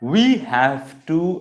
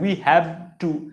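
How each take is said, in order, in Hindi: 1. 'Have' का अंत दाँत-होंठ वाली गूँजती 'v' से होता है। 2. 'Have' का अंत बंगाली जैसी साँस वाली 'bh' से होता है। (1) "উপরের দাঁতটা নিচের ঠোঁটটা একসাথে লেগে একটা ভাইব্রেশন তৈরি হচ্ছে" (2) "এরকম না"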